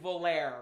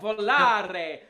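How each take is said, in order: First: The word is said plainly, without flair. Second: The word is said with lively flair. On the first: The speaker calls it wrong. "a lot of people are saying" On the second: The speaker calls it right. "You got to say it with some, you know"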